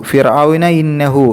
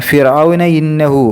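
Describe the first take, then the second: The two takes are said the same way.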